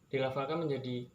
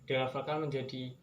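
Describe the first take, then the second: The two takes are said the same way.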